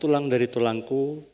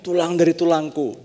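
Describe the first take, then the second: First: It is said as a doubtful, disappointed question. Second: It is said warmly, with delight. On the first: The speaker doubts the partner is the one they married. "Kata-katanya masih sama, tapi intonasinya berbeda" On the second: The speaker is happy to have found a partner. "mereka juga ngomongnya seperti ini"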